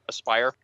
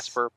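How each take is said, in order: First: The name ends in a long 'pire' sound. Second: The name ends in a short 'per' sound. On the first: The speaker calls it right. "but Aspire" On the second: The speaker calls it wrong.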